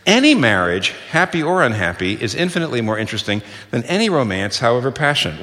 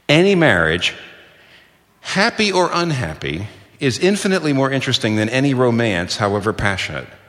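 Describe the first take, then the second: First: The word 'any' is strongly stressed. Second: The word 'any' has no special stress.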